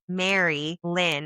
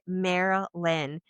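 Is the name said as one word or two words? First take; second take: two words; one word. First: It is said as two separate names. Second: It is said as one run-together name. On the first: The speaker calls it right. "They're saying it was Mary Lynn" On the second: The speaker calls it wrong. "I'm saying it wrong"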